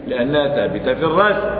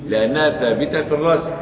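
The two takes are said the same way.

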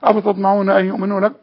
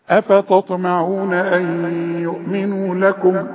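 First: The phrase is recited quickly with letters run together. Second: The phrase is recited slowly with each letter clear. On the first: The speaker calls it wrong. "سرعه القراءه دي الملائكه ما بتحبهاش ... ما ينفعش الكلام ده" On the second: The speaker calls it right. "وتبين حروفك"

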